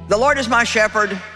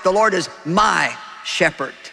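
First: It is read without special stress on my. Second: The word my is stressed.

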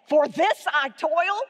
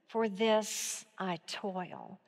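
First: A sarcastic question, incredulous in tone. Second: A tentative statement, as if thinking it over.

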